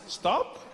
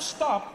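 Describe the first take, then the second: First: It is said as a gentle suggestion. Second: It is said as a firm command.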